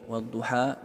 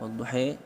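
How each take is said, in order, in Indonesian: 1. Kata ini diakhiri dengan vokal 'a' terbuka. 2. Kata ini diakhiri dengan vokal 'e'. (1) "lahjah, yaitu bunyi konsonan seperti a, i, u, e, o" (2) "itu dari segi lahjah perubahannya"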